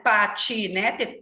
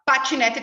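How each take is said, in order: First: Patinete very slowly as pa-ti-ne-te; sílaba por sílaba. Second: Said in the usual way. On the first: Shown as a demonstration. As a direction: stretch and separate each syllable of patinete. (patinete bem devagar, em sílabas) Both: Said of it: "eu separo em sílaba".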